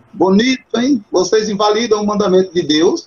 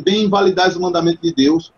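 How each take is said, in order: First: A touch of ironic reproach, slightly higher; mock praise that really scolds; ironic rebuke. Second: Said in the usual way. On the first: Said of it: "É como se Cristo estivesse dizendo assim". (repreensão irônica, um pouco mais aguda) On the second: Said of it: "na verdade ele não tá dizendo".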